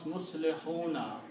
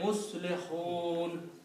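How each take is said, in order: First: The word ends with a final vowel sound. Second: The word ends on a consonant, vowel dropped. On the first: The reading continues into the next verse. "If you want to continue to the next ayat reading, then you will pronounce Muslihuna" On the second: The reading stops at the end of the verse. "if you stop here ... you don't pronounce that harka. So you say Muslihun"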